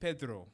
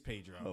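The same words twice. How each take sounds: First: The name is said with a Spanish-style pronunciation. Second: The name is said with a Black American pronunciation. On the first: The speaker calls it wrong. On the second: The speaker calls it right.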